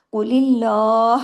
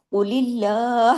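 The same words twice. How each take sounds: First: Very slow قول اللہ, qaf heavy, lam of اللہ light; slow tajweed recitation. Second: Very slow قول اللہ with a thin, light lam in اللہ. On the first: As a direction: press the qaf, keep اللہ thin. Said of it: "اس طرح سے قاف heavy ہوگا". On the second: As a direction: keep the lam of اللہ light after the kasra. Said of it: "اس میں لام heavy نہیں ہوگا". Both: Shown as a demonstration.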